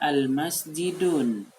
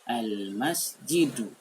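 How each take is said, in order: First: The word ends with an added n sound. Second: The word ends on a vowel without n. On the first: The speaker calls it wrong. "jangan dibaca al-masjidun, itu keliru" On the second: The speaker calls it right. "Yang betul adalah"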